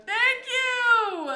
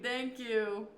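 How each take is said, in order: First: Loud, high, gushing thank you; a loud, high, overjoyed thank you; excited thanks. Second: Said in the usual way. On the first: Real, not acted. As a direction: burst out with thrilled thanks. Thanking a fan for the compliment.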